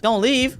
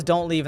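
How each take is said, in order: First: Puzzled question. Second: Said in the usual way. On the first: Real, not acted. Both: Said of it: "It says".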